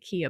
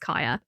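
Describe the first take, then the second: First: The name is said like 'Kia'. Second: The name is said like 'Kaya'. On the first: The speaker calls it wrong. "I can't remember if I was pronouncing it Kia before" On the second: The speaker calls it right. "but I think it's Kaya"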